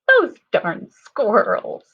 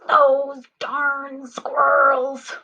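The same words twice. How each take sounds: First: It is said in a silly voice. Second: It is said in an angry voice. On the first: "Can you sound silly next?" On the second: "Let's start with an angry voice"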